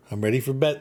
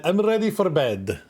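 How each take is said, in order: First: Said in the usual way. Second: Higher, hammed-up mock Italian; put-on Italian accent. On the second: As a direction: swoop up into a playful Italian accent. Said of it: "here in Italy".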